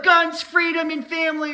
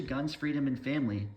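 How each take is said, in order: First: "guns, freedom, and family" belted high and loud like a cheering patriot; mocking patriot cheer. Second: Said in the usual way. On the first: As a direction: proclaim it as a proud cartoon patriot. Mocking patriotic gun lover.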